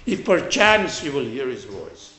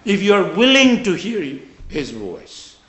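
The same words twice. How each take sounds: First: PERCHANCE lifted, then falling away; stress on PERCHANCE. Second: WILLING raised and emphatic; stress on WILLING. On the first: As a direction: lean on perchance as the mistaken reading. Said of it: "That doesn't mean". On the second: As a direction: press on willing as the true meaning. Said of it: "What that means is". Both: Shown as a demonstration.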